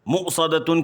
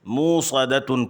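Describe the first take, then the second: First: A glottal catch follows the short first vowel. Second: The first vowel is a long 'oo' sound. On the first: "मुक़सदतुन की बजाय" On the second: "वाव मद्दा ... मूसदतुन पढ़ते हैं"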